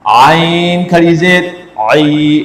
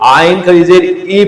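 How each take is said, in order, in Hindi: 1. अंतिम स्वर गले की गहराई से बोला जाता है। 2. अंतिम स्वर बिना गले के दबाव के एक सादा स्वर है। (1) "आपने इसको गले के दरमियान से अदा करना है।" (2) "इसको लोग आइन खड़ी जेद ई पढ़ते हैं, ये गलत है।"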